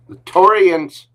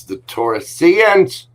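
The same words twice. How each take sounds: First: "Taurians" said cleanly as TOR-ee-ans, high and falling; corrected Taurians. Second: "Taurusians" said with an extra syllable, high and slow, ta-RU-see-ans; mispronounced Taurusians. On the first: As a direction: fix the word, landing "Taurians" correctly. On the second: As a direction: slip into "Taurusians" before catching it. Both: Real, not acted.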